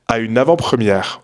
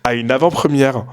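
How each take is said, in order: First: Said in the usual way. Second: "avant-première" with a Parisian trailing vowel on the end; failed pronunciation. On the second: Real, not acted. Vlogger retrying the word, "avant-première" slipping into Parisian accent. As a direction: botch "avant-première", dragging an extra vowel after "première". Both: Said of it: "j'arrive pas à dire le mot correctement".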